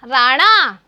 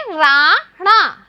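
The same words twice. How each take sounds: First: Said in the usual way. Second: राणा said slowly and evenly, syllables joined into one word; slow classroom model of राणा; slow blended reading. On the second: Shown as a demonstration. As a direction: draw out राणा so the children can follow. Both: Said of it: "एक साथ बोलेंगे".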